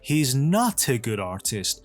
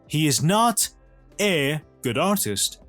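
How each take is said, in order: First: The t runs straight into the following vowel. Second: The t is released separately before the next word. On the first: The speaker calls it right. "میگیم" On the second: The speaker calls it wrong. "نمیگیم"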